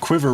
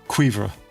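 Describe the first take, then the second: First: It is said with an English pronunciation. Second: It is said with a French pronunciation. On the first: The speaker calls it wrong. "favorite butcherings" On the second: The speaker calls it right. "if you know French, it's copper"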